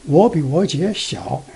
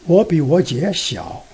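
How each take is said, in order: The two takes are said the same way.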